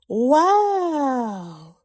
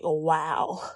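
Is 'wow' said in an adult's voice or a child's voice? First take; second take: child's voice; adult's voice. First: It imitates the little girl's way of saying it. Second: It is said in her own adult voice.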